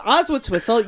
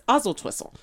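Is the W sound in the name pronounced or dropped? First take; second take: pronounced; dropped. First: The W sound in the name is pronounced. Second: The W sound in the name is dropped. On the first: "once you learn how to pronounce Oswaldtwistle" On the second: "you have to drop the W and it's Oswaldtwistle"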